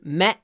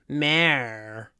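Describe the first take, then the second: First: It is said in a British accent. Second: It is said in an American accent. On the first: "British pronunciation" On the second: "American pronunciation would be the mayor"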